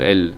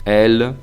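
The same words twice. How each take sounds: First: The vowel is short, like Spanish el. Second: The vowel is stretched out and lengthened. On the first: "como si estuviera escrito en español el" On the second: "Se puede enfatizar más el E, el, alargando"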